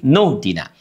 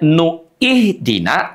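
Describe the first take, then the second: First: The initial vowel of ihdina is dropped, words merged. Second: The initial vowel of ihdina is sounded separately. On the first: The speaker calls it right. "tapi nuhdina" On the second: The speaker calls it wrong. "Tidak nuih dina"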